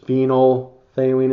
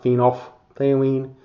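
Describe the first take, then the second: First: The middle 'ph' sound is silent. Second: The middle 'ph' sound is pronounced. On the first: The speaker calls it right. "that pH kind of is silent" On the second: The speaker calls it wrong. "It's not phenolphthalein"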